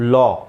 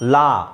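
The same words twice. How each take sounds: First: The vowel matches the 'o' in 'dog'. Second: The vowel differs from the 'o' in 'dog'. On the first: The speaker calls it right. "It is ಲಾ. So ಆಕಾರ ಬರಬೇಕು" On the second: The speaker calls it wrong. "It is not actually ಲಾ"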